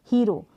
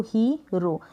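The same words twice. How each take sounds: First: Said in the usual way. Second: hero as ही, then रो; split into syllables. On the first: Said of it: "यहाँ पर hero है". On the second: Shown as a demonstration. Teacher breaks the example word, hero in two pieces. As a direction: separate the long "hee" from रो in hero. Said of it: "इसको break किया".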